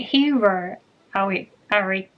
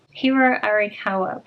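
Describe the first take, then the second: First: Hiro Ari- broken off mid-name, tongue tripping; stumbling name. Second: Hiro Arikawa, said carefully as hee-roh ah-ree-kah-wah; careful try at the author's name Hiro Arikawa; corrected name. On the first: Vlogger tripping over the author's name, halting. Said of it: "oh my goodness". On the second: Vlogger checking the author's name, careful pronunciation. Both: Real, not acted.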